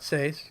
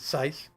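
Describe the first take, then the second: First: The vowel sounds like the 'a' in 'ace'. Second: The vowel sounds like the 'i' in 'ice'. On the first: The speaker calls it wrong. "not Sace" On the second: The speaker calls it right. "it's Sice"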